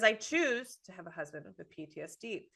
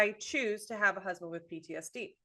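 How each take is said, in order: First: The word 'choose' is stressed. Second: The word 'choose' is not stressed. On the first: The speaker calls it right. "emphasize, choose" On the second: The speaker calls it wrong. "you're putting the emphasis on the wrong word"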